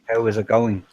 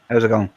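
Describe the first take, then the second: First: Each word is said separately. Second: The words run together like one word. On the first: "instead of saying" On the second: "It it just sounds like one big word"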